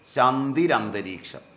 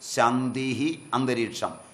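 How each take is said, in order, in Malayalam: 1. രണ്ട് വാക്കുകളും 'r' ശബ്ദം കൊണ്ട് ചേർത്താണ് പറയുന്നത്. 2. രണ്ട് വാക്കുകളും വേർതിരിച്ച്, ചേർക്കാതെയാണ് പറയുന്നത്.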